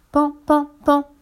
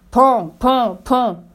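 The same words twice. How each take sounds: First: High, light spoken knocks; little high "pan" taps; gentle knocking. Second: Spoken knocks, firm and punchy; firm "pan" knocks; knocking sounds. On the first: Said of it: "Il frappe doucement". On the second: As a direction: knock with the voice, beat by beat. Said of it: "Il frappa". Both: A narrator's reading.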